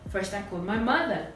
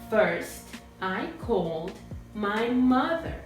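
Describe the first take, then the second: First: All the words flow together without breaks. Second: Each word is said separately with breaks.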